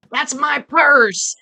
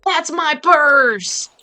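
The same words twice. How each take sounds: First: High, loud, drawn-out cartoon yell; Bobby's self-defense yell. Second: High, very drawn-out cartoon holler; louder imitated yell. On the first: Streamer quoting a King of the Hill episode, imitated self-defense yell. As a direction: belt it out slowly, imitating a cartoon boy. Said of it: "that's where that sound". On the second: Streamer repeating the cartoon catchphrase on demand, louder mock yell. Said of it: "Say it louder".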